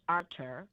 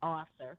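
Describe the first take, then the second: First: The name is pronounced with French sounds. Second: The name is pronounced with English sounds. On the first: "they pronounce, I guess, in French" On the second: "we would say"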